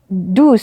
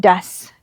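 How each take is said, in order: First: The vowel sounds like the vowel in do. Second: The vowel sounds like the vowel in bus. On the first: The speaker calls it wrong. "ini dibacanya bukan does ya" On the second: The speaker calls it right. "tapi jadi does. Cara bacanya berubah"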